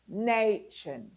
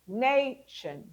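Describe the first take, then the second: First: The last syllable is a reduced 'shun'. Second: The last syllable is a reduced 'shun'.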